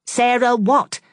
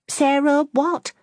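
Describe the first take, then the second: First: High and louder, snapping the question; sharp. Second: High, slow, prying question; impatient curiosity. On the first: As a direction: cut in sharply on "what". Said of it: "asked Fanny sharply". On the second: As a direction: drag it out, itching to know. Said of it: "with impatient curiosity". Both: Acted.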